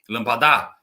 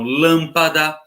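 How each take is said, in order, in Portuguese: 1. A tônica está na última sílaba. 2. A tônica está na primeira sílaba. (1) "Se falasse assim, seria acento nesse dá, mas não é" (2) "a antepenúltima sílaba é proparoxítona"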